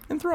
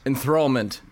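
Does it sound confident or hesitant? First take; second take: hesitant; confident. First: It is said hesitantly, unsure of itself. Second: It is said firmly, with confidence.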